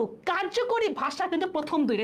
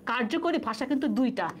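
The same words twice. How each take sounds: First: কার্যকরী lifted high and held for weight; stress on কার্যকরী. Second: Said in the usual way. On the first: Shown as a demonstration. Teacher to students, marking key word কার্যকরী with high stress. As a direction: lean hard on কার্যকরী. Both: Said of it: "এখানে আমি ইচ্ছে করে".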